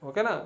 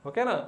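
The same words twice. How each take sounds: The two takes are said the same way.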